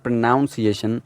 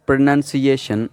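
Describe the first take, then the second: First: "pronunciation" with NOUN in the middle; slow mistaken "pronunciation", second syllable like noun; wrong pronunciation. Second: "pronunciation" with NUN, said slowly; careful "pronunciation", short vowel in second syllable; correct pronunciation. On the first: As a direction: say "pronunciation" as pro-NOUN-si-ation. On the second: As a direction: model "pronunciation" as pro-NUN-si-ation. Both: Shown as a demonstration. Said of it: "it's not pronunciation".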